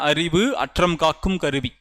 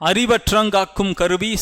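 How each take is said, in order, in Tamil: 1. ஒவ்வொரு வார்த்தையும் தனித்தனியாகவும் தெளிவாகவும் சொல்லப்படுகிறது. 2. வார்த்தைகள் இடைவெளி இல்லாமல் ஒன்றாகச் சேர்ந்து சொல்லப்படுகின்றன.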